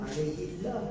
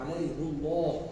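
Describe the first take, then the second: First: The word ends in i; Allah sounds thin. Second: The word ends in u; Allah sounds thick. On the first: "Kalau baca dengan kasrah dia jadi nipis ya" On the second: "dibaca dengan alaihu kerana nak mengagungkan"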